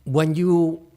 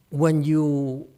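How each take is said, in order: Both takes have the same delivery.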